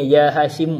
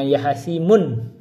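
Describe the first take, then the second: First: The name ends in a plain vowel, no n. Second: The name ends with an added n sound. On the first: The speaker calls it right. "Bacanya ya Hashim" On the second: The speaker calls it wrong. "jangan ya Hashimun"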